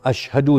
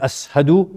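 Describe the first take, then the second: First: The middle consonant is a 'sh' sound. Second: The middle consonant is an 's' sound. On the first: "Instead of ashhadu" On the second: "he's saying ashadu"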